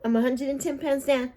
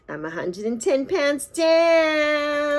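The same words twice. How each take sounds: First: Said in the usual way. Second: Drawn-out, high, slow celebration; excited. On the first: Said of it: "repeats her announcement". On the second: Real, not acted. Vlogger to viewers, proudly announcing her weight loss, slow and high. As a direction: savor every word like a victory shout.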